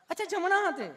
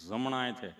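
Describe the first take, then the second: First: Very high put-on nurse voice; sweetly asking nurse. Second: Low stammering patient; tongue-tied Gabho. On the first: Nurse repeating patient's answer, high mock sweetness. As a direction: echo the patient in a high coo. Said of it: "તમે કેટલું પ્રેમથી પૂછો છો". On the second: Retold or imitated. Gabho answering the nurse, low and halting. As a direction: catch on the first sound, answer low. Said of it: "ચોંટે અટકે".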